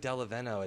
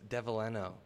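First: The name begins with a 'del' sound. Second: The name begins with a 'dev' sound. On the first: The speaker calls it wrong. "I said Dellaveno" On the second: The speaker calls it right. "It's Dellaveno"

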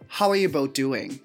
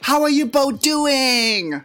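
First: It is asked as a plain, calm question. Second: It is asked with excited, exclamatory emphasis.

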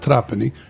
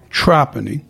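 First: It is said unlike the local pronunciation. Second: It is said with the local pronunciation. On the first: The speaker calls it wrong. "not Trapani" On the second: The speaker calls it right. "the Trapanese say Trapani"

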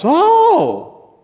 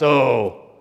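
First: It sounds surprised. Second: It sounds disgusted.

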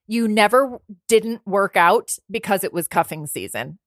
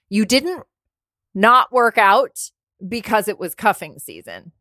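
First: It is said at a normal pace. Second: It is said slowly and deliberately.

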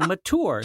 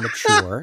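First: It is said in a rural Michigan pronunciation. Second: It is said in a standard native pronunciation.

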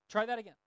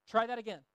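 No difference in how they are said.

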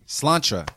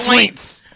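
First: The name is pronounced the Irish way, Sláinte. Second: The name is pronounced as the English-sounding Slints. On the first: This is the proper name of the place. "That's how you really said it" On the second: This is the casual name friends used for the place. "We used to call it Slint"

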